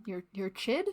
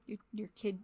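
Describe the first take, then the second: First: "chid" with a ch at the start, as a question. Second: Said in the usual way. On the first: Real, not acted. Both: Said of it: "somewhere between child and kid".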